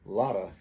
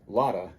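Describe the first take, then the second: First: The T is tapped and the V is dropped. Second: The same.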